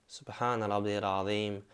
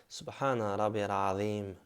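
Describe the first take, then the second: No difference in how they are said.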